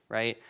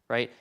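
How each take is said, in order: The two takes are said the same way.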